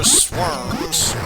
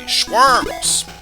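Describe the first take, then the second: First: The word begins with a plain sw sound. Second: The word begins with a shw sound. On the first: "now I'm actually pronouncing it correctly" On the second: "I best pronounce them my way, which is schworms"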